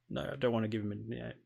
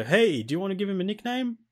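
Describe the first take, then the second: First: Quick, soft, weary brush-off; dismissive refusal. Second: High-pitched, chirpy game prompt. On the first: Player's reply to the game. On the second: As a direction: pipe up like an eager game asking. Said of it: "it'll go". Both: Acted.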